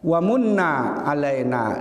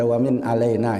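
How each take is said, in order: First: The first word is read with a 'munna' ending. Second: The first word is read with a short 'min' ending. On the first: It is read as the verb 'grant favour'. The speaker calls it right. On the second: It is read as the preposition 'from'. The speaker calls it wrong.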